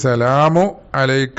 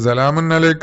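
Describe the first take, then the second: First: No n sound follows 'salamu'. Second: An n sound follows 'salamu'.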